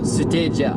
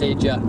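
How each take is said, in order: First: It is said with a Japanese-style pronunciation. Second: It is said with an English-style pronunciation. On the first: "would be the Japanese way to say it" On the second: "that's how I pronounce it"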